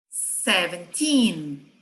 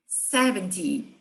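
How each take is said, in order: First: Slow "seventeen" with long, stressed last syllable; stress on TEEN. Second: "seventy" with strong first syllable, falling -ty; stress on SEV. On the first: Teacher contrasting side by side, stress on TEEN. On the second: Teacher contrasting side by side, stress on SEV. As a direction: hit the SEV of "seventy", drop the -ty. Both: Shown as a demonstration. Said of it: "lado a lado".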